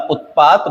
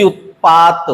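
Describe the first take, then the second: First: Said in the usual way. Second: उत्पात drawn out with a cut-off final t; halant ending. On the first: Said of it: "बिना हलंत वाला सही है". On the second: Shown as a demonstration. Teacher showing the halant mistake, उत्पात slow with stressed ending. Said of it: "हलंत नहीं आता".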